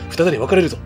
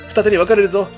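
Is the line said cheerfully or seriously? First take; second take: seriously; cheerfully. First: It is said in a serious, tense tone. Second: It is said in a cheerful, happy tone. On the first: The speaker calls it right. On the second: The speaker calls it wrong.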